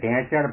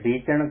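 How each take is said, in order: First: The first vowel is a nasal 'e' sound. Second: The first vowel is a high 'ee' sound. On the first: This is the form used in another region. "તો કે ઢેંચણ ભાંગ્યો" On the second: This is the speaker's own regional form. "આપણે ઢીચણને ઢીચણ કહીએ"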